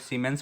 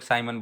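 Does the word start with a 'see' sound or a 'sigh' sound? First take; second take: see; sigh. First: It starts with 'see' and ends in 'mens'. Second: It starts with 'sigh' and ends in 'mun'. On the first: "कई लोग सीमेंस बोलते हैं" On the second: "कई लोग साइमन बोलते हैं"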